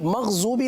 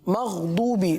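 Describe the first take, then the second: First: The middle consonant is a z-like sound. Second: The middle consonant is a heavy d-like sound. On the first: The speaker calls it wrong. "मग़ज़ूबी नहीं पढ़ना" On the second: The speaker calls it right.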